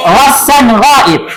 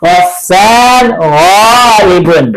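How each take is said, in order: First: Wasan ghaib with the ending cut off, ghaib stops on the b; final vowel dropped. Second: Wasan ghaibun with the final -un fully voiced, said slowly; full case ending. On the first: Teacher showing how Arabs really say it, ending dropped. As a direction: clip ghaib short, no case ending, conversational. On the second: Teacher showing the class the full written form, slow and complete. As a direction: spell out ghaibun to its last -un, drawn out. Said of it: "Itu biasanya harokat terakhir itu nggak dibaca". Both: Shown as a demonstration.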